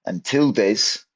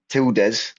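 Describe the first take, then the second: First: Tildes said the English way, TIL-dz; the English way, tildes like an English word; English pronunciation. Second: Tildes said the Spanish way, TEEL-des; Spanish pronunciation. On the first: Teacher slipping into English, saying tildes the English way. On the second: Teacher correcting herself to Spanish tildes. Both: Shown as a demonstration. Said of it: "I slipped into the English pronunciation there".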